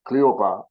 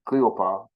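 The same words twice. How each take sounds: The two takes are said the same way.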